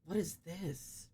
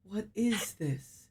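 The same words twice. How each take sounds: First: WHAT slow and quiet, falling; "what" stressed, drawn out slowly. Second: IS leaned on, slow and falling; slow "What is this?" with weight on "is"; stress on is. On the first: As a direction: lean on "what" in a slow hush. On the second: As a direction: hit "is" in a slowed question. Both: Real, not acted.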